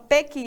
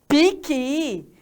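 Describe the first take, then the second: First: The first vowel sounds like e. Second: The first vowel sounds like i. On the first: The speaker calls it wrong. "tem gente que lá do Sul fala" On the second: The speaker calls it right.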